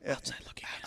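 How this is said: It is said in a whisper.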